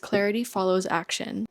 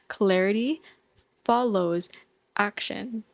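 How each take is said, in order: First: It is said at normal speed. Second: It is said slowly and deliberately.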